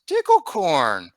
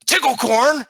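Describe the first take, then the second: First: Slow, higher kobold voice, falling at the end; Meepo's answering call. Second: High, loud, rising kobold call; kobold's questioning cry. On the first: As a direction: answer back, stretched out and falling. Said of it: "And then Meepo goes". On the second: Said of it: "looks at Meepo and he goes". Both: Acted.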